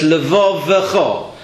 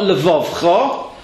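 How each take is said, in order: First: The middle vowel is pronounced as a full syllable. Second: The middle vowel is dropped between the consonants. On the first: The speaker calls it right. "it shows that the shavo underneath is an a shavo, not a sounded shavo" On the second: The speaker calls it wrong. "not levavcha"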